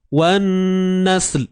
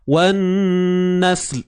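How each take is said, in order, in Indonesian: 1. Bunyi akhirnya ditahan dan diputus. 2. Bunyi akhirnya ditahan dan diputus.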